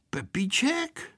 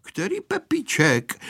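First: Slow half-whispered question; hushed question. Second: Fully voiced, higher question; asking aloud. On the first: Boy startled by hearing his name. (tichá, šeptaná otázka) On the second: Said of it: "zeptal se nahlas". (otázka položená nahlas) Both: A narrator's reading.

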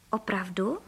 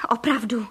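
First: OPRAVDU asked low, rising at the end; questioning. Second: OPRAVDU as a firm statement, no questioning rise; confirming answer. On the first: Duck checking the hunter's promise, OPRAVDU as rising question. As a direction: ask „Opravdu?“ softly with a rising tune. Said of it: "zeptala se kachna". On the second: Hunter assuring the duck, OPRAVDU stated as confirmation. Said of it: "odpověděl pan Frejka". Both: A narrator's reading.

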